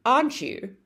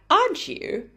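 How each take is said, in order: First: "aren't you" stepping down to a close; falling intonation. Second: "aren't you" pitched high, swinging upward; rising intonation. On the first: Teacher points out the tag expecting a short answer, falling intonation. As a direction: say "aren't you" going down, like a statement. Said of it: "said with a falling intonation". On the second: Teacher points out the interested question tag, rising intonation. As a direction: exaggerate the lift on "aren't you". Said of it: "said again with the rising intonation". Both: Shown as a demonstration.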